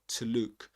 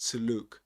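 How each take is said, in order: First: The word 'to' has a reduced schwa vowel. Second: The word 'to' has a reduced schwa vowel.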